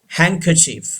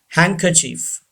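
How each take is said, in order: Both takes have the same delivery.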